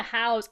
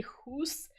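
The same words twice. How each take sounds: First: Said in the usual way. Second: "hoose" drawn out with oo; Scottish-style pronunciation. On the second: Shown as a demonstration. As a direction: say "hoose" slowly, for house. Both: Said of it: "I say hoose".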